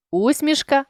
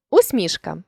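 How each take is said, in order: First: Усмішка with У stressed high; stress on first syllable. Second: Усмішка with МІШ stressed; stress on middle syllable. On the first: Teacher shows a stress variant, усмішка stressed on У. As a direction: punch the opening У of усмішка. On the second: Teacher shows a stress variant, усмішка stressed on МІШ. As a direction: lean on МІШ inside усмішка. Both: Shown as a demonstration. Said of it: "наголосивши той чи інший склад".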